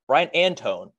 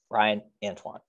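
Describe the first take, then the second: First: The surname ends with a 'tone' sound. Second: The surname ends with a 'twahn' sound. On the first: The speaker calls it wrong. "the announcers have been like" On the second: The speaker calls it right. "his name's quite easy to pronounce"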